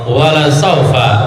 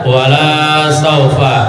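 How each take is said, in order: First: The vowel in 'la' is short. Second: The vowel in 'la' is long. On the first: The speaker calls it right. "lamnya lam taukid" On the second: The speaker calls it wrong. "Jangan dibaca panjang"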